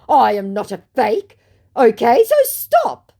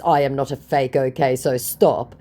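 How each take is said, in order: First: Hammed-up protest, slowing on the last words; indignant scammer. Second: Said in the usual way. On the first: Voicing the scammer's indignant message.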